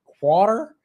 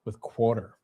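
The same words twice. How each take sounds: First: Quarter drawn out with a rising mock Southern twang. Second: Quarter with a clear r, "KWOR-ter", said plain; just say quarter cleanly, no twang; quarter said plainly. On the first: Streamer mocks his own slip on quarter, mock Southern twang. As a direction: say quarter the goofy twangy way, mocking yourself. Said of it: "a dumbass accent". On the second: Streamer corrects his slip, says quarter plainly. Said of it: "trying to say water with quarter". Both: Shown as a demonstration.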